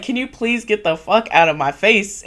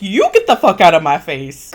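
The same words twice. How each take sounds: First: Mock exasperated request, raised pitch; fed up. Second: Louder mock retort; snapping back. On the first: Tim over the argument asks her off, retold fed-up voice. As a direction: plead wearily to be left alone, imitating. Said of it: "Tim is over this shit". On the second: She fires back at Tim, loud mock retort. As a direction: throw it straight back, hammed-up and forceful. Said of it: "And she's like".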